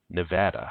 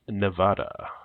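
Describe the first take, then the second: First: The word is said the way locals say it. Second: The word is said the non-local way.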